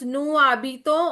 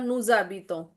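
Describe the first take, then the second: First: The words are said with no z link. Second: A z sound links the two words. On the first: The speaker calls it wrong. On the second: The speaker calls it right.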